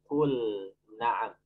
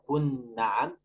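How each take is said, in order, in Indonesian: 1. L dilafalkan dengan jelas sebelum N. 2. L menyatu dengan bunyi N setelahnya. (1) "Diperjelas. ... tapi" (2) "Jadi tidak"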